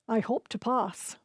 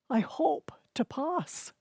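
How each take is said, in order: First: Hope is said in a sure, confident way. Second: Hope is said in a doubtful, wishful way. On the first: The speaker is certain of passing. "the word hope meant he had overwhelming confidence" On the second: The speaker barely believes passing is possible. "he meant he was hoping against hope"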